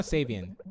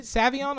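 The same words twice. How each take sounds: First: "Savion" as SAY-vee-un; "Savion" opening like "save"; second pronunciation option. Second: "Savion" as SAV-ee-ahn; "Savion" opening like "savvy"; first pronunciation option. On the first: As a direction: say "Savion" with a long a and an "un" ending. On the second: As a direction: say "Savion" with a short a and an "ahn" ending. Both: Shown as a demonstration. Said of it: "Is it Savion or Savion?".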